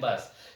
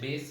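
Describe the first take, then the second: First: The vowel is short, like 'bass'. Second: The vowel is long, like 'base'. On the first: "नीचे वाले को बोलते हैं बास" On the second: "ऊपर वाला जो है बेस, इसको बोलते हैं बेस"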